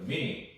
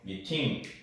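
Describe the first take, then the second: First: The middle consonant sounds like a D. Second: The middle consonant is a hard T. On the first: "T가 D로 발음이 전환이 됩니다" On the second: "그거는 콩글리시가 되는 거고"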